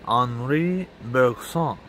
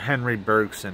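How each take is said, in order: First: The name is pronounced the French way. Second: The name is pronounced the American way. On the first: The speaker calls it right. "I'm pretty sure the first one was correct" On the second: The speaker calls it wrong. "as a very Americanized pronunciation"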